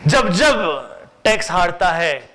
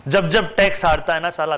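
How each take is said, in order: First: जब जब spoken slowly and louder, like a proverb; slow emphatic maxim. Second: Said in the usual way. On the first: Shown as a demonstration. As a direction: lay down the rule slowly. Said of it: "तब तब amendment होता है।". (धीमे और ज़ोर से कहावत की तरह) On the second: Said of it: "तब तब क्या होता है?".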